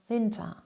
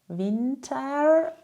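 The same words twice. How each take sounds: First: The ending is a soft, short 'a' sound. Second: The ending is a strong, clear 'er' sound. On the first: The speaker calls it right. "sondern eher Winter" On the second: The speaker calls it wrong. "du sagst nicht Winter mit einem starken E R"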